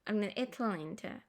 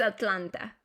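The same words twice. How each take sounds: First: Slow, softer "Atlanta" in an American accent; drawn-out American "Atlanta", Ts weakened. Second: Spanish-style "Atlanta" with crisp Ts; full Atlanta. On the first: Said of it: "Se escucha súper diferente". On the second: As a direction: say every letter of "Atlanta" firmly. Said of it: "Pero es Atlanta". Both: Shown as a demonstration.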